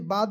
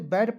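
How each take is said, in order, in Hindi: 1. स्वर एक खुली 'aa' ध्वनि है। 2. स्वर एक चपटी 'ae' ध्वनि है। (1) "इसे बाद भी पढ़ सकते" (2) "इसे बैड पढ़ सकते हैं"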